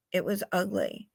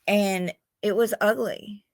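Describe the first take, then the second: First: Almost to herself; quiet heavy repeat. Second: Said in the usual way. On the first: Real, not acted. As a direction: let it sink, much softer.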